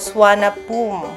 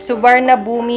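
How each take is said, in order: First: The name is shortened to about three syllables. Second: Every spelled syllable of the name is sounded. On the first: This is how the name is actually pronounced. "pero Swanapum" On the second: This is how the name reads from its spelling. "ang basa"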